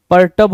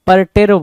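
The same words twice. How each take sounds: First: Pur-TUB; correct perturb. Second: Pur-TAIRB, loud; wrong perturb. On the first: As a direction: say परटर्ब with a short "tur", r barely heard. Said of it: "परटर्ब होना चाहिए था". (परटर्ब में छोटा "टर्ब" बोलें) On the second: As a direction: say परटेर्ब with a full "tair". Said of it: "परटेर्ब बोला है". (परटेर्ब में "टेर" साफ़ बोलें) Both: Shown as a demonstration.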